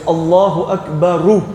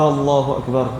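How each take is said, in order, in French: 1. Akbar se termine par une voyelle u ajoutée. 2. Akbar se termine par la consonne r, pas de voyelle. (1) "Non, c'est Allahu Akbaru" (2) "beaucoup qui commettent de manière"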